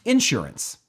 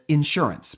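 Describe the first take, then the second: First: The stress is on the first syllable. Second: The stress is on the second syllable. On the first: This is a regional habit from the Midwest. "where the emphasis was on the in and not on the sure" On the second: This is how most people say it. "most of the world says insurance"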